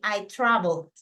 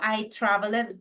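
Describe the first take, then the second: First: The ending is just a small d sound. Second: The ending is said as an extra syllable. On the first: The speaker calls it right. "but I say I traveled. Una pequeña d al final" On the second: The speaker calls it wrong. "No digo I traveled"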